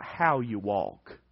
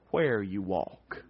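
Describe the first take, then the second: First: "how" set against where, said slowly; stress on how. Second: "where" drawn out slow, low and soft; slow right down and weigh "where"; stress on where. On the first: Preacher correcting a misreading for the congregation, stress on "how". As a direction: lean on "how" in a slow, measured phrase. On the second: Preacher revealing what the verse means, slow stress on "where". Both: Shown as a demonstration.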